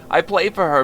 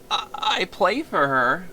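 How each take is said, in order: First: Said in the usual way. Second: Slow, dreamy stammer; tender confession. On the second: Acted. Violinist confessing his love, slow and tender. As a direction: linger over "play" with a long rising "I, I play for her".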